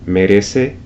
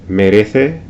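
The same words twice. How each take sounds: First: The c sounds like English s. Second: The c sounds like English th. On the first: This is how it is said in Latin America. "in Latin America, it's pronounced as an S" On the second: This is how it is said in Spain. "in Spain, its pronunciation is similar to the English T H in this"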